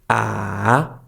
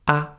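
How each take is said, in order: First: The pitch dips down, then rises again. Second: The syllable is light and soft. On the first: "goes down and then up again" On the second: "the last one is very soft"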